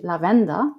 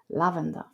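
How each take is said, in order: First: It is pronounced the German way. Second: It is pronounced the English way. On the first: "in German it would be lavender" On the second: "in English it's lavender"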